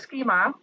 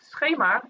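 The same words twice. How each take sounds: First: The word has an English pronunciation. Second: The word has a Dutch pronunciation. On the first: "which is officially called a schema" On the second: "if we had to do it in Dutch"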